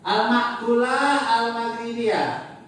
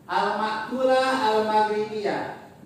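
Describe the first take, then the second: No difference in how they are said.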